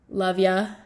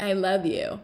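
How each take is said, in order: First: It is said in a light, casual way. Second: It is said in an intense, earnest way.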